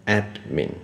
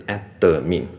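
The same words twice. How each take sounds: First: “admin”念成ad-min，中间断开; “admin”的d后不带母音; 两个音节. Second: “admin”错念成ad-de-min; 在“admin”的d后多加“的”音; 三个音节. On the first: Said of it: "两个音节，ad跟min". (分两拍清楚念“admin”) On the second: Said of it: "就是有三个音节". (分三拍念“admin”，d带母音) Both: Shown as a demonstration.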